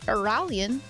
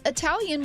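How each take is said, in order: First: The middle consonant is an R sound. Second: The middle consonant is a T sound.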